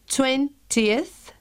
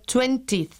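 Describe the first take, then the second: First: Both vowels before the ending are pronounced separately. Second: The vowels before the ending are merged into one. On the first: The speaker calls it right. "sí se pronuncian ambas vocales, la I y la E" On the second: The speaker calls it wrong. "y no 20th, como la pronuncian muchas personas"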